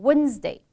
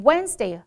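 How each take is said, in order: First: "Wednesday" said as "wunz-day"; uh in place of eh in "Wednesday"; wrong vowel. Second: "Wednesday" with an open eh, "wenz-day"; correct vowel. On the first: Teacher imitating students' mistake, dull uh vowel. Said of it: "还有人会念成". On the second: Teacher giving the correct word, open eh vowel. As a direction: clear eh in the first syllable of "Wednesday". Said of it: "这个哎的音变成呃的音". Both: Shown as a demonstration.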